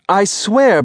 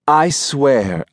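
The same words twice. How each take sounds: First: Landlady insisting to Rose, sharply raised; emphatic vow. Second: Said in the usual way. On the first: Acted. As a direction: swear it with sudden heat. Landlady vows, repeating herself.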